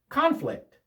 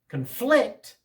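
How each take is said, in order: First: The stress is on the first syllable. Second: The stress is on the second syllable. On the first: It is a noun. "The first syllable is stressed. Conflict is a noun" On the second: It is a verb. "The accent on the second syllable, that's the verb"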